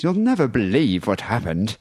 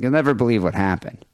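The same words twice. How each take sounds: First: It imitates Sleazy E's voice, like C-3PO. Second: It is said in the speaker's own voice.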